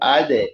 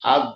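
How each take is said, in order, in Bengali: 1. শেষের d ঝাঁকুনি দিয়ে ছাড়া হয়। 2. শেষের d হঠাৎ থামে, কোনো ঝাঁকুনি নেই। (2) "আদ না"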